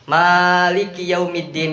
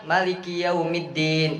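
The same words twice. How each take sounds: First: The first vowel of maliki is drawn out long. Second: The first vowel of maliki is kept short. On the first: This is the usual reading. "Biasanya kita begitu" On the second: This is another valid reading some people use. "Ada orang yang"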